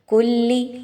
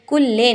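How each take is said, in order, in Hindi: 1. शब्द एक साफ़ 'ee' स्वर से खत्म होता है। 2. शब्द एक 'eh' स्वर से खत्म होता है। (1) "लाम की ज़ेर को बहुत अच्छे से पढ़ना है" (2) "कुल्ले नहीं कहना"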